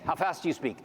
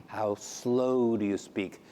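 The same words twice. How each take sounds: First: Said in the usual way. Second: Slow, drawn-out, lower delivery. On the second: Shown as a demonstration. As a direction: stretch every word out slowly.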